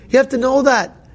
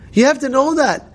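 The two takes are said the same way.

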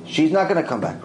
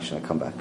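First: Other judge's firm no in normal voice; insistent denial. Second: Much lower and softer, calm certainty; quiet assurance. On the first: Judge arguing against Rav Ovadia, firm refusal. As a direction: argue she stays dead. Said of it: "He's arguing with him". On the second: Rav Ovadia answering the other judge, low and quiet. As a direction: settle it quietly. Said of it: "Rav Ovadia says she's gonna come back". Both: Retold or imitated.

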